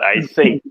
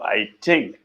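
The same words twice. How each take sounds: First: Think begins with a soft th sound. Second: Think begins with a hard t sound. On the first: "and not I think" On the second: "people switch to plosives like like uh, t"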